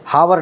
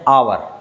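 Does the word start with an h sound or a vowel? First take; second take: h sound; vowel. First: The word begins with an h sound. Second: The word begins with a vowel sound. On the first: The speaker calls it wrong. "हम इसे हावर नहीं पढ़ते" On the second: The speaker calls it right. "बल्कि पढ़ते हैं आवर"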